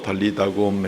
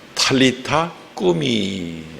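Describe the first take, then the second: First: It is said as four syllables, dal-li-da-gum. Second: It is said as two words, ta-li-ta kku-mi. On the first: This is the form used in the translated text. "번역본에 달리다굼이라고 나와 있기 때문에" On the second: This is the original local pronunciation. "본토 발음으로는"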